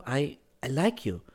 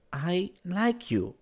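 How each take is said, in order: First: Higher, stammered confession; falter, then say it simply; hesitant girl. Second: Put-on slow, high, deliberate girl's voice. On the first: Acted. Girl first admits liking him, hesitantly. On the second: A narrator's reading. Girl confesses to him, speaking slowly. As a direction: draw out each word. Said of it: "she said slowly".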